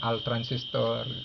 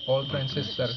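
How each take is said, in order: First: The first word is said as Arabic 'al'. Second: The first word is said as English 'all'. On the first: It is an Arabic-style brand name. The speaker calls it wrong. "dia bacanya al transistor" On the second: The radio can receive all transmissions. The speaker calls it right. "harusnya dibaca all transistor"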